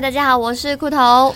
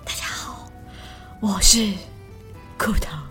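First: It is said in a plain, normal voice. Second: It is said in a soft, breathy voice.

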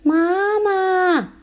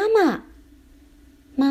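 First: It is shouted at full voice. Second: It is called loudly.

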